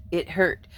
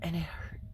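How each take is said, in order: First: Said in the usual way. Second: Whisper. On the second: Real, not acted.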